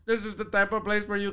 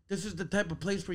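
First: It is spoken in a put-on Sri Lankan accent. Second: It is spoken in the speaker's usual accent. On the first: "can you do the Sri Lankan one? And then I do it" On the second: "Can you do it with your accent"

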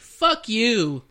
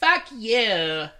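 First: It is said in the speaker's natural voice. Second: It is said in a put-on female voice.

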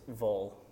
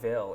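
First: The word is reduced to a 'vul' sound. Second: The word has a clear 'ill' vowel. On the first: The speaker calls it right. "it's Vol" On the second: The speaker calls it wrong. "Not Ville"

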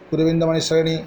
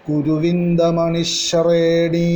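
First: The 'shre' syllable is said plainly and lightly. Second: The 'shre' syllable is doubled and strongly stressed. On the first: The speaker calls it wrong. "സാധാരണ നമ്മൾ കുരുവിന്ദമണി ശ്രേണി എന്ന് ചൊല്ലും, അങ്ങനെ പോരാ" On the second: The speaker calls it right. "ആ ശ്രേ എന്നുള്ളതിന് കുറച്ച് കട്ടി കൂട്ടിയിട്ട്, ദിത്വമാക്കിയിട്ട്, സ്ട്രെസ് ചെയ്തിട്ട്"

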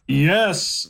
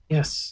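First: It is said with more enthusiasm. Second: It is said sheepishly and hesitantly.

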